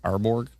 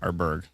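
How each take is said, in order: First: The second syllable sounds like borg. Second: The second syllable sounds like berg. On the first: The speaker calls it wrong. "Is that how you pronounce it?" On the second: The speaker calls it right. "Oh, my bad"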